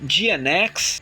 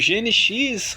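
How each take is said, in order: First: The letters are named with English letter names. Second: The letters are named with Portuguese letter names.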